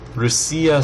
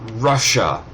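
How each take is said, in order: First: The word is pronounced softly and gently. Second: The word is pronounced harshly and roughly. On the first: "Russia sounds so much more gentle" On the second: "Russia is just so harsh compared"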